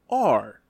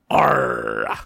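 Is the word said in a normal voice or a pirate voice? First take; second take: normal; pirate. First: It is said in an ordinary speaking voice. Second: It is said in a gruff put-on pirate voice. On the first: "I'm going to pronounce it with my regular voice" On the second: "It's with the pirate"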